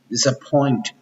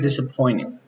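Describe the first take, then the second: First: The T sound is clearly pronounced. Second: The T sound is dropped. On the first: "English stress always the T" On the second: "But American disappointing. Disappear the sound of T"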